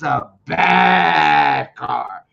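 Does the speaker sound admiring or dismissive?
admiring. The voice sounds excited and admiring. The car is so good it is impressive. "but I could be like, "Man, that's a bad car,""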